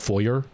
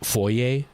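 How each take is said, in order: First: It has the American pronunciation. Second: It has the British-influenced pronunciation. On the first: "instead of" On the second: "more of like the British influence"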